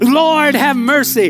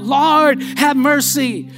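First: It is cried out more loudly. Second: It is said at a normal loudness.

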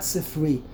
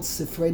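First: The word ends with an 'ee' sound. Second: The word ends with an 'ay' sound. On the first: It refers to one book. The speaker calls it wrong. "not Sifri. Many people, unfortunately, they mispronounce" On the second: It refers to several books. The speaker calls it right. "That's why it's called Sifrei"

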